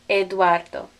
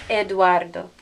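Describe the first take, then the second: No difference in how they are said.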